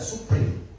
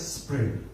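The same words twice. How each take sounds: First: It is said with a Sundanese accent. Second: It is said with a Western accent.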